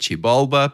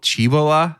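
First: The last syllable has an added B sound. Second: The last syllable has no B sound. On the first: The speaker calls it wrong. "we love adding that B in that last syllable" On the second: The speaker calls it right. "the city of gold was called Chibola"

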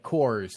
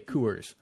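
First: The vowel sounds like the word 'core'. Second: The vowel has a Midwest-style sound. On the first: "You say like Coors" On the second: "and I say Coors"

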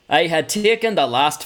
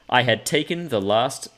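First: It is said in a Scottish accent. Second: It is said in the speaker's usual accent.

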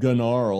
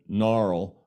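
First: The word starts with a hard G sound. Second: The word starts with a plain N sound. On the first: The spelling is made clear to listeners. "I'll pronounce it Gnarl" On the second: This is the intended everyday pronunciation. "it's just meant to be said gnarl"

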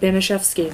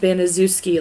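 First: The name is said differently from its spelling. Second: The name is said just as it is spelled. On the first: The speaker calls it right. "but Banaszewski" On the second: The speaker calls it wrong. "not Banaszewski, like it's spelled"

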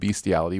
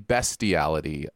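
First: The first syllable sounds like 'beast'. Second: The first syllable sounds like 'best'. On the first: The speaker calls it wrong. "not bestiality" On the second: The speaker calls it right. "It is actually bestiality"

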